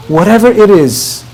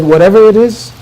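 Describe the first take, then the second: First: "Whatever it is" as an assurance, tune falling; reassuring statement. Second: "Whatever it is?" echoed with questioning lift. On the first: Husband reassuring his bride, "Whatever it is" said as a falling statement. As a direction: say "Whatever it is" as a settled promise. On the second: Bride checking her husband's promise, "Whatever it is?" lifted as a question. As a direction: repeat "Whatever it is?" as a tentative question. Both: Retold or imitated.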